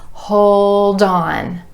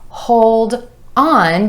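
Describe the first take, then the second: First: The D links over, making 'on' sound like 'dawn'. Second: The two words are said separately.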